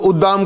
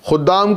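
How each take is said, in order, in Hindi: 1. शब्द की शुरुआत ग्लोटल रुकावट से होती है। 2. शब्द की शुरुआत K जैसी व्यंजन ध्वनि से होती है।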